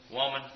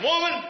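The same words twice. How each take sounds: First: "Woman" softer, gentle and sincere; tender woman. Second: Sharp high-pitched "Woman" as an insult; harsh woman. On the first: Preacher shows the kind tone of woman. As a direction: say "Woman" with love. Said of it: "in kindness and sincerity". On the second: Preacher shows a rude way to say woman, mock harsh. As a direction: bark "Woman" up high and cutting. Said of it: "He wasn't saying it like that". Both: Shown as a demonstration.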